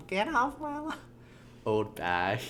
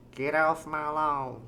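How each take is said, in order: First: Put-on very high, softer old person squeak; thin, high-pitched old person attempt. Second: Put-on slow, tentative old person voice; lightly voiced old lawn-guarder; feeling out an old person voice. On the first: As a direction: try a falsetto old person. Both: Shown as a demonstration. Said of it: "forgetting how old people talk".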